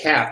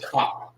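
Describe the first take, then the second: First: The vowel is a flat 'a' as in cat. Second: The vowel is an open 'ah' sound. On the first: The speaker calls it wrong. "it ain't cap either" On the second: The speaker calls it right. "It's Ka"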